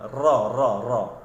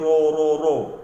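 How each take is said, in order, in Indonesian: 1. Bibir tetap rileks, tidak didorong ke depan. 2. Bibir didorong ke depan dan dibulatkan. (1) "tidak perlu memuncungkan mulut" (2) "kalau memuncungkan mulut bunyinya tidak tepat"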